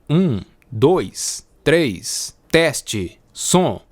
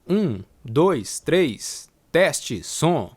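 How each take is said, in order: First: The voice has its full bass, with no cut. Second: The whole voice is recorded ten decibels lower. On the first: "sem a chave de atenuação de graves" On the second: "agora eu vou ativar a chave de atenuação de menos dez decibéis"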